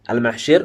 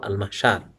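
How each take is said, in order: First: The last syllable has the vowel 'i'. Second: The last syllable has the vowel 'a'. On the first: This form was heard from Arabs. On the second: This form follows the regular pattern. "Kiasnya al-mahsyar"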